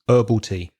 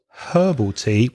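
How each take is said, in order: First: The H at the start is dropped. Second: The H at the start is pronounced. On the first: "you would hear in the U S" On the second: "with that H sound"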